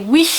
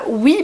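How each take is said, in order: First: The word ends with a breathy 'ch' hiss. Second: The word ends cleanly without any extra breath. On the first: "cette espèce de d'expiration de ch derrière" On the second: "ils ne disaient pas oui"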